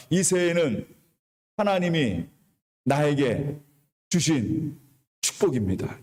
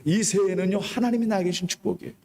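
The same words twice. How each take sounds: First: Each phrase said apart with long pauses; slow call-and-repeat lead. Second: Said in the usual way. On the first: Shown as a demonstration. Pastor leading the congregation to repeat, phrase by phrase with pauses. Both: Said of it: "같이 따라합니다".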